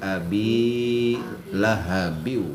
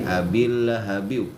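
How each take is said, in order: First: The bi vowel is held for two beats. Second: The bi vowel is cut short, joined to l. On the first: The speaker calls it right. "Abi dua harkat abinya" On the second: The speaker calls it wrong. "Jadi nggak ada lagi"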